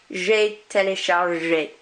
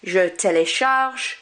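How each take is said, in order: First: Slow "téléchargé" ending on ZHAY; "téléchargé" with a clear final vowel; é as A sound. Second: Slow "télécharge" ending on ZH; "télécharge" with its last E unpronounced; silent final E. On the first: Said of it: "E accent is like an A sound". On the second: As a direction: stop "télécharge" with no final vowel. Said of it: "I don't pronounce this one". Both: Shown as a demonstration.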